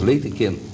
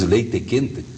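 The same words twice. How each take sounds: First: The final syllable fades away, barely pronounced. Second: Each syllable is hammered, finals fully pronounced. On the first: This is how the speaker's own people speak. "A última sílaba morre na boca" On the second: This is how a gaúcho speaks. "que martela as sílabas"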